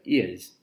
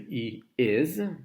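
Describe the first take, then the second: First: The words merge into one contracted syllable. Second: Two full words are said, he and is. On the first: "but we can also say" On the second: "we can say he is"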